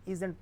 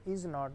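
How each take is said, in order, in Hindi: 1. इसे एक संकुचित शब्द के रूप में कहा जाता है। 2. इसे दो अलग-अलग पूरे शब्दों के रूप में कहा जाता है। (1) "बल्कि इसको इज़ंट पढ़ेंगे" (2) "हम इसको इज़ नॉट नहीं पढ़ते"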